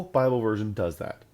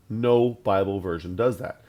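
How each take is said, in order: First: Said in the usual way. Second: "No" punched out louder at the start; insisting loudly on "No"; stress on No. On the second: Shown as a demonstration. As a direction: hit "No" hard, then the rest falls.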